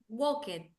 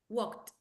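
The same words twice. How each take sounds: First: The ending is said as an extra syllable. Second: The ending is said as a plain t. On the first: The speaker calls it wrong. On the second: The speaker calls it right.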